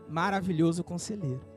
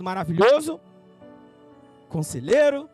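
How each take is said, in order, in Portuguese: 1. As duas palavras são ditas juntas, sem pausa. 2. Há uma pausa entre as duas palavras. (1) "Não" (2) "Eu já vi muita gente lendo, colocando vírgula nisso"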